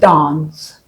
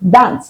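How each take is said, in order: First: The word uses the standard pronunciation. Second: The word uses the local everyday pronunciation. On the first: It was learned from a song. The speaker calls it right. "correct pronunciation of that word" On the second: Everyone around the speaker said it this way. The speaker calls it wrong. "I pronounced it as dance because that's what everyone around me said"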